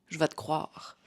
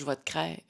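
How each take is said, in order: First: The verb is said with a 'wa' vowel. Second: The verb is said with an 'eh' vowel. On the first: It is the standard way. "C'est le verbe croire" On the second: It is the old regional way still used locally. "ancienne prononciation de croire"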